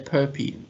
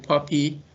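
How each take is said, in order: First: The first vowel is long, like 'pope'. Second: The first vowel is short, like 'pop'. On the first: This is the speaker's own preferred way. "my inclination is to say POPI" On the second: This is how other people say it. "I hear people saying POPI"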